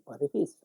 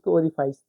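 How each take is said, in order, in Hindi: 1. अंतिम अक्षर में छोटी 'i' ध्वनि है। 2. अंतिम अक्षर 'ice' से तुक मिलाता है। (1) "इसको ओरिफिस कहते हैं" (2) "ओरिफाइस नहीं पढ़ेंगे"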